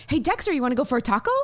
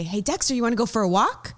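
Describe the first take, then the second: First: High, quick, eager voice to the dog; same bouncy tone, different words; same excited pet talk. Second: High, quick, eager voice to the dog; excited pet talk. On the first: Owner asks her dog about a taco in walk tone, excited. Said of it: "he would still get excited". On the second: Owner asks her dog about a walk, high and excited. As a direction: sell the walk with bouncy excitement. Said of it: "that's how I talk to him". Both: Shown as a demonstration.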